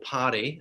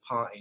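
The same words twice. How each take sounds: First: It is said in an Australian accent. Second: It is said in an English accent. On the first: "as Australians will" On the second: "we're from England, so I, I say party"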